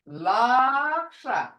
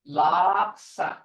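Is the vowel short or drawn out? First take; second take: drawn out; short. First: The word is dragged out and emphasized. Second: The word is said short, not drawn out. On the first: It means a liar. "You drag it out" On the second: It means a hoof. "A hoof is laksa"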